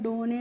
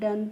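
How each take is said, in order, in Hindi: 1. यह दो अक्षर में बोला जाता है, doh-nay। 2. यह एक अक्षर में बोला जाता है, dun। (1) "डोने नहीं" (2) "डन पढ़ेंगे"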